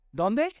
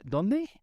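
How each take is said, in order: First: Higher, pushing the crowd to answer; preacher insisting the congregation answer; louder repeat. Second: Said in the usual way. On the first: Shown as a demonstration. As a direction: call it out again. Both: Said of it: "prompting congregation to answer".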